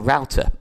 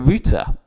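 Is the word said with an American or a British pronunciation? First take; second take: American; British. First: The word is said in an American accent. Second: The word is said in a British accent.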